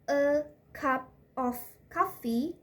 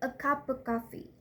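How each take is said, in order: First: The word 'of' is said fully and separately. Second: The word 'of' is reduced and linked to 'cup'. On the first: "from a cup of coffee" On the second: "it's connected and it's reduced"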